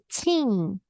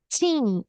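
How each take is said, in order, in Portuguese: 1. A palavra termina com um som nasal de N. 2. A palavra termina com um som nasal de N.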